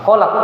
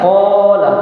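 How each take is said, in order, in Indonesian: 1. Vokal pertama pendek dan terputus. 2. Vokal pertama dipanjangkan.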